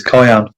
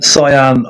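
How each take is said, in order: First: "cyan" said KY-an, with a k; old hard-c pronunciation. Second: "Cyan" said SIGH-an, with an s; soft-c pronunciation. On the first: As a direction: start "cyan" with a hard k sound. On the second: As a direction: start "Cyan" with a soft s sound. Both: Shown as a demonstration. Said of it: "I used to pronounce it as".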